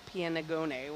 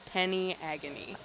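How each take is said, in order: First: It is said like 'pianagone', in three syllables. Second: It is said like the words 'penny agony'. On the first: The speaker calls it wrong. "Not pianagone, what I was trying to say" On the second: The speaker calls it right. "it is penny agony, is the pronunciation of that"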